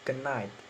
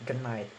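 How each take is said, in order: First: The d sound blends into the following n. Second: The same.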